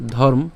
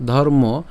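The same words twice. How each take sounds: First: ধর্ম as "dhorm", no final vowel; careful ধর্ম with the final o dropped; closed consonant ending. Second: ধর্ম as "dhormo", ending in o; careful ধর্ম with a voiced vowel ending; open final vowel. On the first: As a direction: stop ধর্ম on the m. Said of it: "তাহলে এটার উচ্চারণটা কেমন হচ্ছে". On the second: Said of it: "ধর্ম পর্যন্ত যদি উচ্চারণ করি". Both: Shown as a demonstration.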